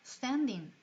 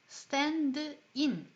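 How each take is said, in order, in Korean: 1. 두 단어는 자연스럽게 이어져서 하나처럼 발음합니다. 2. 두 단어는 따로따로, 하나씩 발음합니다. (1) "이렇게 자연스럽게 이어서" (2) "이렇게 따로따로 하나씩 발음하는 게 아니라"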